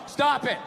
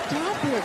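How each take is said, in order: First: It is read out flat and serious. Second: It is said in a coy, playful way.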